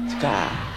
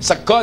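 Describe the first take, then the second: First: It is said with a final A, Ngapak. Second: It is said with a final O, standard Javanese.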